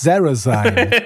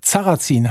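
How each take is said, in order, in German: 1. Der Name wird stilisiert, markenartig ausgesprochen. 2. Der Name wird schlicht, ganz gewöhnlich ausgesprochen. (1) "als sei es eine Firma aus Resident Evil" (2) "das ist auch ein Sarrazin heißt die Karte"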